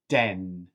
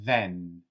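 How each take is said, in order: First: It begins with a hard d sound. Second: It begins with a soft th sound. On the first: The speaker calls it wrong. "or den" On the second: The speaker calls it right. "And now practice this one"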